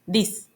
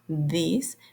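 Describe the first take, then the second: First: It begins with a hard d sound. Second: It begins with a voiced th sound.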